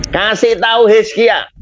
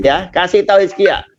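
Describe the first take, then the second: First: Lightly raised, voice of God giving a command; a hint of God speaking to the prophet; voicing God. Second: Said in the usual way. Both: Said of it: "Tuhan berfirman kepada nabinya".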